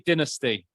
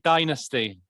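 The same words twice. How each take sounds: First: It is said with a British accent. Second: It is said with an American accent. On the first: "I say dynasty" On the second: "Americans say dynasty"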